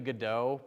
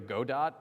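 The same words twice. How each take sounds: First: The final t is not sounded. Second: Every letter is sounded, including the final t. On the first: This is the technically correct form. "It's technically Godot" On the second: It is said this way to make it easier to write. "I'm pronouncing the whole all, all the letters"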